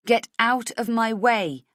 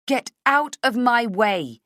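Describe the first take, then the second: First: Slow and louder, deliberate; slow demand. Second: Slow, louder, forced bravado; false bravado. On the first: Acted. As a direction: push each word out. Heroine, faltering. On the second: A narrator's reading. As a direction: fake courage you lack. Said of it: "with false bravado".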